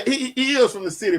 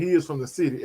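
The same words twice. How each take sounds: First: Is stretched and pushed up high; higher pitched insistence on is; stress on is. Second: Said in the usual way. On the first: Real, not acted. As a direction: lean hard on the word is. Repeats friend's point emphatically. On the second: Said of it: "Jay Good was like".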